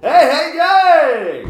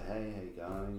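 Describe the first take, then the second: First: It is said loudly, projected to the back. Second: It is said softly and casually.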